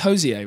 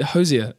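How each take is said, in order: First: The name is said in a French-sounding way. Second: The name is said in a plain English way.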